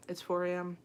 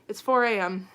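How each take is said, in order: First: Said in the usual way. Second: "four" hit harder and louder on the repeat; louder, incredulous "It's four A M"; emphatic repeat. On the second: Shown as a demonstration. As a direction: say it again with disbelief, stressing "four".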